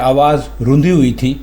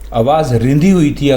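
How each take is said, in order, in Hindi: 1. दूसरे शब्द में 'u' स्वर है। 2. दूसरे शब्द में 'i' स्वर है। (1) "रे के ऊपर पेश है रूंधना" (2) "अगर आप बोलेंगे तो ये गलत होगा"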